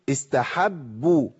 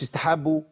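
First: The b sound is doubled and held long. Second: The b sound is single and short. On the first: The speaker calls it right. "اقول استحبوا" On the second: The speaker calls it wrong. "ايه استحبوا دي؟ ما تنفعش خالص"

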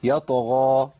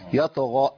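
First: The word ends on an open long vowel. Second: The word ends with an added glottal stop. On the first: The speaker calls it right. "مفيش همزة" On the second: The speaker calls it wrong. "اثبات همزة مش موجودة خالص"

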